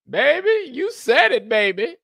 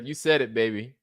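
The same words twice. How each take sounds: First: Loud, very high catchphrase voice; high falsetto. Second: Said in the usual way. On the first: Acted. Comic repeats a catchphrase for laughs, loud high falsetto.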